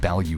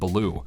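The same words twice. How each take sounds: First: The name sounds like the word 'value'. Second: The name does not sound like 'value'. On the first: "like value" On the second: "I'm not pronouncing it Baloo like value"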